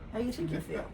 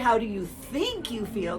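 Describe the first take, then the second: First: The word think is slipped in quickly and quietly. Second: The word think is said clearly and fully. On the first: The listener answers without consciously thinking. The speaker calls it right. "You almost say the think subliminally" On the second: The listener starts consciously thinking about the question. The speaker calls it wrong. "But you don't say"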